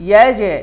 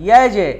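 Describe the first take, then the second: No difference in how they are said.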